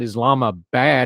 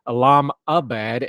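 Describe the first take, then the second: First: The ending sounds like the English word bad. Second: The ending is said as one unit, abad. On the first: The city name would mean Islam is bad. The speaker calls it wrong. "not Islamabad, as in bad" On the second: The name means a place settled for Islam. The speaker calls it right. "Instead, it is Islamabad, A B A D"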